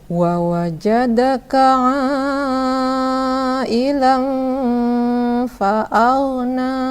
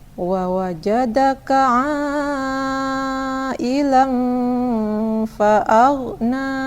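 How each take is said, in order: The two takes are said the same way.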